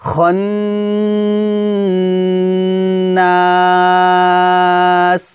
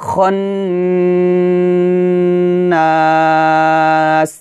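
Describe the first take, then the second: Both takes have the same delivery.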